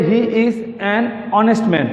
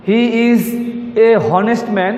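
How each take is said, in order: First: An honest with the h silent, honest said as "onest"; the correct take with a silent h; correct article. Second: Said in the usual way. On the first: Shown as a demonstration. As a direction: stress an honest, dropping the h sound. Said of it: "আসলে উত্তর হবে". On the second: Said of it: "এটা ভুল".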